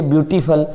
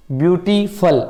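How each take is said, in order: First: Said in the usual way. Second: "beautiful" slowly broken up as view, टी, फुल; syllable by syllable. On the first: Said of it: "आप जब बोलेंगे beautiful". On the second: Shown as a demonstration. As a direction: sound out each syllable of "beautiful" separately. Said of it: "इसमें तीन पद हैं". ("Beautiful" को पदों में तोड़कर धीरे बोलें)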